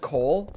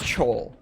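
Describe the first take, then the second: First: The start is a plain k sound. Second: The start has a pronounced C H sound. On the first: This is the common simplified form of the name. "a lot of people think it's just Cole" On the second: This is the official form of the name.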